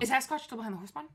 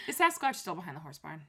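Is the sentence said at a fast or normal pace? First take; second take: fast; normal. First: The sentence is said very fast. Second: The sentence is said at a normal pace.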